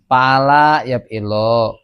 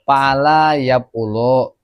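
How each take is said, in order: First: "Pala yab ilo" drawn out slowly, ending "ilo". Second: "pala yab ulu" drawn out slowly, ending "ulu". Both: Shown as a demonstration.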